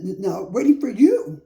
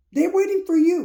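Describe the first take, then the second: First: Said in the usual way. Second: Waiting hit much higher and louder; stress on waiting. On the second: Shown as a demonstration. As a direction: punch the word waiting as the point.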